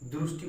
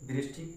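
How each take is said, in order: First: It is said with Gujarati-style pronunciation. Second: It is said with standard Hindi pronunciation. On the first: "Gujarat में उसको दृष्टि या दृष्टि बोला जाता है" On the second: "हिंदी में दृष्टि बोला जाता है"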